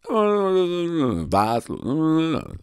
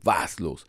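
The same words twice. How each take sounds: First: It is said in a wild, crazy tone. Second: It is said in a plain, normal tone.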